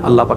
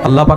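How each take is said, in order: First: It is said at a normal, softer volume. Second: It is said noticeably louder.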